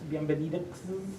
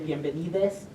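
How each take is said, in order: First: The ending is said with an x sound. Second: The ending is said with a plain e sound. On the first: The speaker calls it wrong. "because that's a mess and hard to say" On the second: The speaker calls it right. "Some people will just say an E sound"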